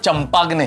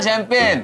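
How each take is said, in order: First: It is said with a hard ch and g sound. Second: It is said with a soft sh sound. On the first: The speaker calls it wrong. "इसका मतलब ये नहीं कि उसका उच्चारण चंपाग्नि है" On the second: The speaker calls it right. "वो शैंपेन होती है"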